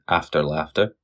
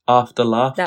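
First: It is said in a Scottish accent. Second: It is said in a British English accent.

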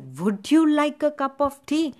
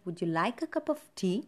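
First: The stress falls on 'would you'. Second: The stress falls on 'cup' and 'tea'. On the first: The speaker calls it wrong. "would you is not stressed. You don't say" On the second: The speaker calls it right. "No, it's like"

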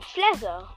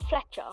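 First: The middle sound is a 'ts' sound. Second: The middle sound is a 'ch' sound. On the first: This is how others at school said the name. "They spelled it F-L-E-Z-E-R. Apparently, I'm Fletcher" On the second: This is the name's own usual pronunciation. "not Fletcher"

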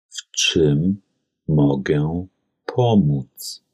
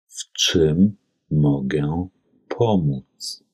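The two takes are said the same way.

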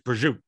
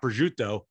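First: The word is said with its last syllable dropped. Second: The word is said with every syllable.

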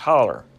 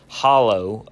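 First: The word ends with an er sound. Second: The word ends with a long O sound.

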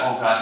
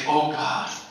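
First: It is said lightly, without feeling. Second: It is said with deep heartfelt feeling. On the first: The speaker calls it wrong. "Just don't say it like" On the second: The speaker calls it right. "Just say"

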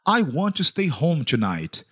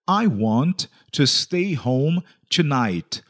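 First: It is said at normal speed. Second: It is said more slowly.

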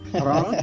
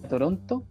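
First: It is said with a Canadian English accent. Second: It is said with a Spanish accent.

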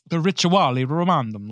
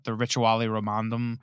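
First: It is said in an Italian accent. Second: It is said in his plain accent.

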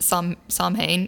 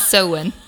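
First: The word is sounded out following its spelling. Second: The word is sounded differently from its spelling. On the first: The speaker calls it wrong. "I've always pronounced it Samhain" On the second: The speaker calls it right. "but it's Samhain"

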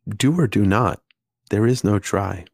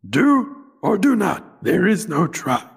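First: It is said in the speaker's normal voice. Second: It is said in a put-on character voice.

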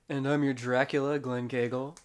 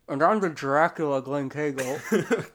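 First: It is said in his plain voice. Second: It is said in a put-on Dracula voice.

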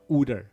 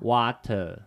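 First: It is said with a Philadelphia accent. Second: It is said with a British-sounding accent.

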